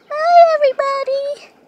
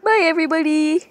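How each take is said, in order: First: Much higher, much louder sign-off; big loud goodbye. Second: Quick, loud redo of the sign-off; fast redo of the goodbye. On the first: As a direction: shout the goodbye to the viewers. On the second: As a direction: blurt the goodbye again quickly. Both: Shown as a demonstration. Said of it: "Actually, wait".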